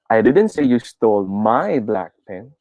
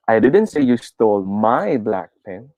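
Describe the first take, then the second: First: The word 'my' carries the main stress. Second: The word 'my' carries the main stress.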